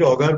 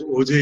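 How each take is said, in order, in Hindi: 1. यह शब्द कठोर 'ger' ध्वनि से खत्म होता है। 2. यह शब्द नरम 'zhay' ध्वनि से खत्म होता है। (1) "Sometimes we will call it Auger" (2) "we normally pronounce it as OJ"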